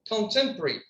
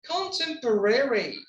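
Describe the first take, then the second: First: A middle vowel is dropped, shortening the word. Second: Every syllable is pronounced in full.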